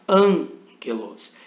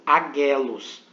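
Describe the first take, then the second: First: The first consonant cluster has an n sound. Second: The first consonant cluster has no n sound. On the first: The speaker calls it right. "mas angelos" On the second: The speaker calls it wrong. "e não agelos"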